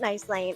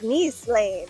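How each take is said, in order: First: Nice rhymes with the English word rice. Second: Nice sounds like neece, the French way. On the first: The speaker calls it wrong. "is not" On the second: The speaker calls it right. "it's ... they are French"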